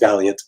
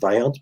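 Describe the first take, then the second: First: The surname sounds like the English word valiant. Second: The surname is said following its written spelling. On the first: This is how the name's owner says it. The speaker calls it right. "he pronounces it Valiant" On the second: This is how a Canadian would read the name. The speaker calls it wrong. "as a Canadian, I would pronounce it Vaillant"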